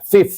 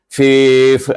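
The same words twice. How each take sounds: First: The vowel is kept short. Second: The vowel is drawn out long. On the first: The speaker calls it right. "fifth saja bunyinya" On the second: The speaker calls it wrong. "jangan panjangkan fifth itu. Fifth, ah, tidak"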